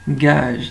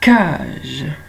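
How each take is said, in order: First: The word starts with a voiced G sound. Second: The word starts with a voiceless K sound. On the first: The speaker calls it wrong. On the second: The speaker calls it right.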